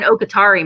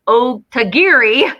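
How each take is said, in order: First: The name sounds like O-ka-ta-ri. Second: The name sounds like O-ta-gi-ri. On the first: The speaker calls it wrong. "I say that wrong every time I say it" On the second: The speaker calls it right. "There, I said it right"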